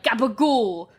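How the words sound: The word is said in an aggressive Italian accent. "Italian people pronounce it so aggressively"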